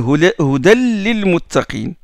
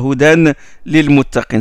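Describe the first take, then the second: First: The n sound merges into the l. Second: The n sound is pronounced before the l. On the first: The speaker calls it right. "On dit hudan lil muttaqin" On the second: The speaker calls it wrong. "On ne dit pas hudan lil muttaqin. C'est lourd d'ailleurs"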